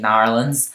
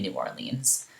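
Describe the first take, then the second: First: It is said the local way, as Narlands. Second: It is said the general way, as New Orleans.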